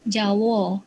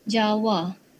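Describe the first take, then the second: First: It is said with Negeri Sembilan dialect pronunciation. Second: It is said with standard Malay pronunciation. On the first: "Dalam dialek Negeri Sembilan" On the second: "bahasa Melayu standard"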